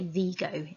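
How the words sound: Vigo is said with a Spanish pronunciation.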